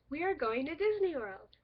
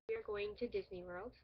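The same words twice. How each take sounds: First: It is said in an excited tone. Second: It is said in a calm, plain tone.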